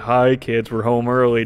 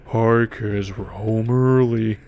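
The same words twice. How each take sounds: First: The phrase is spoken at a normal speed. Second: The phrase is spoken in a slowed-down voice.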